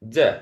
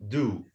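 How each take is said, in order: First: The vowel is reduced to a weak schwa. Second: The vowel is said in its full form. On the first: It is an auxiliary verb. "the first one we will pronounce it d" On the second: It is a main verb. "the last one we will pronounce it do"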